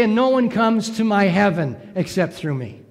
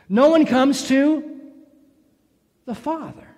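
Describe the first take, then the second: First: Said in the usual way. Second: "the Father" set apart, lifted on "one" and landing on "Father"; stress on FATHER. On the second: Shown as a demonstration. Pastor correcting a common misquote, pointing up "the Father". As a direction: mark "the Father" as the real wording. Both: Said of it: "Notice he doesn't say".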